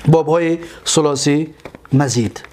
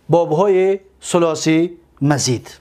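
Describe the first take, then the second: No difference in how they are said.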